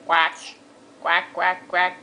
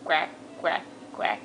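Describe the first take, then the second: First: Lower, voiced duck quacks. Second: Soft whispered duck quacks, low and breathless. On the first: Mom answering her own duck question, voiced quacks. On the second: Mom showing toddler the duck sound, whispered quacks. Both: Shown as a demonstration. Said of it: "What sound does the duck make?".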